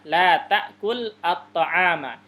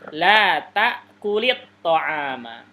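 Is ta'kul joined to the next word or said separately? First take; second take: separate; joined. First: The words are said apart, with no linking vowel. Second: The words are joined by a linking i sound.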